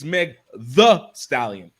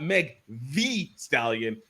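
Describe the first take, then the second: First: The word 'the' is said like 'thuh'. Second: The word 'the' is said like 'thee'. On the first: The speaker calls it right. "it's [name], T H A" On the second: The speaker calls it wrong. "it's not Meg the Stallion, not T H E E"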